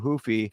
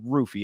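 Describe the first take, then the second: First: The name begins with an H-like sound. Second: The name begins with an R sound. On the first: The speaker calls it wrong. "I keep doing the the the uh, uh, Portuguese pronunciation" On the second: The speaker calls it right. "he pronounces it with the R"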